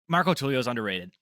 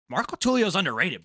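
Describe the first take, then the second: First: It is said in the speaker's natural voice. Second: It is said in an imitated, put-on voice.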